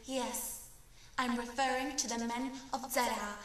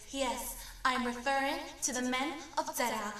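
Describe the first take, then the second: No difference in how they are said.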